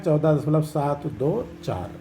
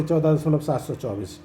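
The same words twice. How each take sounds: First: Digits after the point read one by one, slowly: सात दो चार; slow, careful demo, each digit of सात दो चार separate; correct reading. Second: Decimal part read as a whole number: सात सौ चौबीस; teacher demonstrating the wrong way, सात सौ चौबीस as one number. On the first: Teacher showing students the right way to read 14.724, slowly digit by digit. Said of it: "पढ़ने का तरीका क्या है". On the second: Teacher warning students not to read 14.724 this way, plain demo. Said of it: "इसको ऐसे नहीं पढ़ सकते". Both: Shown as a demonstration.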